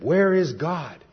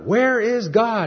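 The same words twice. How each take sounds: First: It is said at a normal, softer volume. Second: It is said loudly and forcefully.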